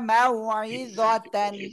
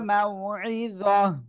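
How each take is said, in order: First: The word ends with a full 'tan' syllable. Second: The word ends with a silent-vowel 'h' sound. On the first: The reading continues without stopping. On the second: The reader stops at this word.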